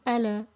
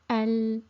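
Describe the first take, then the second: First: The L is released with a vowel-like bounce. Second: The L is held steadily without release. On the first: The speaker calls it wrong. "a very common mistake is to give qalqala to the lam and vibrate the sound" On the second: The speaker calls it right. "we shouldn't take the tongue away from the, the gum area"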